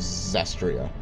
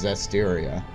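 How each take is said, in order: First: The name is said with three syllables. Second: The name is said with four syllables. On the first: The speaker calls it wrong. "I know I've been mispronouncing it" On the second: The speaker calls it right. "I've looked further, and it's Zestiria"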